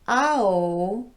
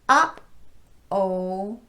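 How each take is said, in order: First: The voice continues smoothly between the syllables. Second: The voice cuts off sharply between the syllables. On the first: "If my voice never shut off" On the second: "Did you hear how my voice shut off between those two syllables?"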